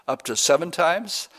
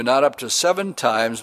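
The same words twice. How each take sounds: First: Up to seven times? lifted into a rising, hopeful question. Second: Seven held long and weighted, not up to seven times; stress on seven. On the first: Peter asking Jesus, hopeful rising question. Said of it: "how often should my brother sin against me". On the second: Jesus correcting Peter, weighted seven. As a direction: lean on seven as a firm correction. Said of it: "but Jesus says". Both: Retold or imitated.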